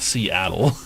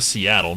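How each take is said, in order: First: The first syllable is split off with a gap. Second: The word is said smoothly without a break. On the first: The speaker calls it wrong. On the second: The speaker calls it right.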